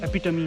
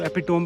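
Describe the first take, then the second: First: The word ends with two syllables, 'tuh-mee'. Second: The word ends with a single 'tome' syllable. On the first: The speaker calls it right. "एपिटमी है" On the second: The speaker calls it wrong. "इसको एपिटोम पढ़ते हैं लोग"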